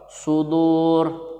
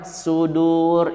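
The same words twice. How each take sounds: First: The first sound is a heavy s with rounded lips. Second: The first sound is a plain, thin s. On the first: The speaker calls it right. "agak sedikit monyong kalau shad" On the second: The speaker calls it wrong. "nggak boleh kalian mengucapkan sudur, itu sin"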